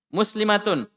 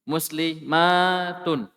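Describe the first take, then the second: First: The vowel before the t is short. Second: The vowel before the t is long. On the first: "Satu orang"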